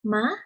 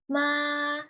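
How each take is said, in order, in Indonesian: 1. Nadanya terdengar kaget, seperti seruan terkejut. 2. Nadanya datar dan stabil. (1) "Nada kedua seperti nada kaget" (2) "Nada pertama yaitu ma. Nada ini bersifat datar"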